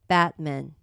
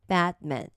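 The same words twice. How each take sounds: The two takes are said the same way.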